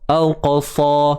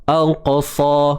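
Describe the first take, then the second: No difference in how they are said.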